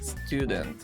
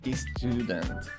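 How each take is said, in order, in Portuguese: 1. Começa diretamente com o som de S. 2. Começa com uma vogal extra antes do S. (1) "não tem o som da letra I aqui" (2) "É muito comum que alunos leiam"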